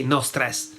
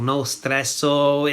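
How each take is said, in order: First: No stress ending on the S, no final O; correct Italian form. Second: No stresso with an O tacked on the end; mock-Italian form. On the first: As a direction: say no stress the Italian way, without a vowel after it. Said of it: "We would say no stress". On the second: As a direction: say no stresso slowly, ending in "-so". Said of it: "it's not Italian". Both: Shown as a demonstration.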